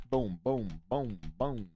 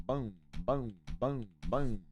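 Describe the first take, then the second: No difference in how they are said.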